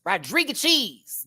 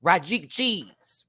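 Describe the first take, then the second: First: Rodriguez Cheese said higher and slow, stressing CHEESE; sing-song slow Rodriguez Cheese, up on cheese; higher mock mispronunciation. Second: Rodriguez Cheese said slow, drawled as ROD-ree-guh-cheese; play-mangle Rodriguez Cheese slowly; drawn-out comic mangling of Rodriguez Cheese; mock mispronunciation. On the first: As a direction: punch CHEESE up high in Rodriguez Cheese. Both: Shown as a demonstration. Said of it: "I'ma say it just like that".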